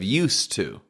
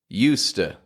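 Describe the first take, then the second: First: The 'to' is pronounced fully and clearly. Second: The 'to' is reduced to a weak 'uh'.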